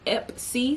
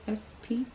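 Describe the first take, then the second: First: The p sound comes before the s sound. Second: The s sound comes before the p sound. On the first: The speaker calls it wrong. "It's not Ep C, so it's not like Epsom salt" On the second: The speaker calls it right. "The S is before the P"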